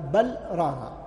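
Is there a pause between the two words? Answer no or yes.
yes. A short pause separates the two words. The speaker calls it right. "هذه سكتات لطيفة على القارئ أن يراعيها"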